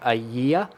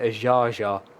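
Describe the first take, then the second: First: The name sounds like 'a year', two syllables. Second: The name sounds like 'a-ja-ja', three syllables. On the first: This was a first guess at the name. The speaker calls it wrong. "Because I was going to go with um a year was going to be my guess" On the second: This is how the name is really said. The speaker calls it right. "but it's Vladimir Ajaja is the name of this man"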